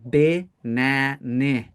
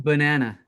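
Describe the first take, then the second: First: The first vowel is a short i sound. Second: The first vowel is a weak schwa sound. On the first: The speaker calls it wrong. "Why can I not say b like with an I" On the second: The speaker calls it right. "We say banana"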